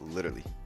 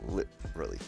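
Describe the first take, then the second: First: The word is run together, skipping the T. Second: The 'lit' part is clearly sounded out separately. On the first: "I just go straight to the L's from like the T. ... That's how I say it" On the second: "make sure they get the lit sounded out"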